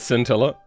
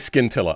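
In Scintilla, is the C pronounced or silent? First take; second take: silent; pronounced. First: The C is silent, starting with s. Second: The C is sounded as a hard k. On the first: "I know it's uh" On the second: "I like to pronounce the C"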